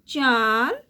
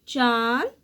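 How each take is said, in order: Both takes have the same delivery.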